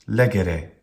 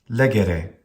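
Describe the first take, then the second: No difference in how they are said.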